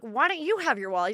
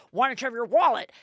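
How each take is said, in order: First: Wife firing the question back at husband; turning it back. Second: "wallet" hit hard as he scolds; husband blaming her about the wallet; accusing question. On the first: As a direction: stress on "you", higher, pointed retort. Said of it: "And I'm like". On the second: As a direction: stress on "wallet", louder and higher, falling. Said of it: "And he's like". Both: Retold or imitated.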